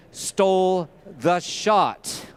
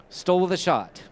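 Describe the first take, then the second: First: Stole the shot, each word drawn out slowly; slow quoted phrase. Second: Said in the usual way. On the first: Retold or imitated. Quoting the filmmakers' saying, slow and drawn out. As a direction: lean on stole, stretching the whole line. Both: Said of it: "as they say".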